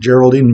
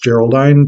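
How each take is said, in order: First: The last syllable sounds like 'deen'. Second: The last syllable rhymes with 'line'. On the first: "I would pronounce it Geraldine" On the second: "Maybe it's actually pronounced Geraldine to fit with the rhyme scheme"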